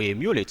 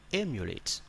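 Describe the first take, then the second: First: The stress is not on the first syllable. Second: The stress is on the first syllable. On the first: The speaker calls it wrong. "I don't say emulate or emulate" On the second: The speaker calls it right. "the stress is on E"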